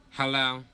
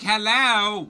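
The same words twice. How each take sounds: First: Said in the usual way. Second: Louder, higher hello with attitude; pointed real hello. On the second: Retold or imitated. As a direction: say hello like you mean business. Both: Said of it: "Like, real hello".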